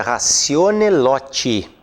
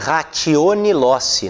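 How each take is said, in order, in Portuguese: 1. A consoante do meio de loci soa como t. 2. A consoante do meio de loci soa como s. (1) "a pronúncia correta do latim é ratione loti" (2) "vejam que eu escrevi ratione loci"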